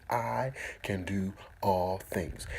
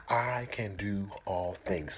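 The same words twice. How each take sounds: First: Slow, voiced, together; slow affirmation. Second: Slow whispered affirmation. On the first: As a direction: say it slowly with them. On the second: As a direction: whisper it slowly. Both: Shown as a demonstration. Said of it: "Say it with me".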